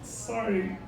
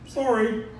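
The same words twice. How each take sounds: First: It is said through clenched teeth. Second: It is said in a normal voice.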